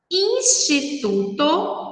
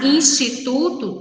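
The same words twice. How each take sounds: First: "instituto" slowly, in separate syllables. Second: Said in the usual way. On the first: Shown as a demonstration. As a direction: sound out each syllable of "instituto". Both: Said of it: "instituto tem quatro sílabas".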